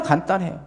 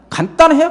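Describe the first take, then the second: First: 간단해요 repeated softly with a rising tune. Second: 간단해요 said high and loud, punched; emphatic. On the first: Pastor softly repeats that prayer is simple. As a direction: let 간단해요 fall back, soft and rising. Soft repeat after the emphatic one. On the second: Pastor tells the congregation prayer is simple, emphatic. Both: Acted.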